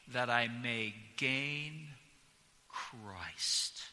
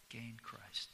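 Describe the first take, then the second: First: Slow weighty close of the verse; emphasized ending. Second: "Gain Christ" repeated much softer; hushed repeat to let it sink in; soft reflective echo of the verse; quiet echo. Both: Shown as a demonstration. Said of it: "emphasized certain words".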